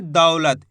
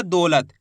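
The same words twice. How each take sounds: First: दौलत with an open "au" in the first syllable; correct au vowel. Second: दौलत mispronounced with a pure "o"; wrong o vowel. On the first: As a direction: say दौलत as "daulat", not "dolat". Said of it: "इसी तरीके से आपको उच्चारण करना है". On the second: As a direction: say दौलत as "dolat", losing the "au". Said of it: "ऐसे नहीं पढ़ना". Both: Shown as a demonstration.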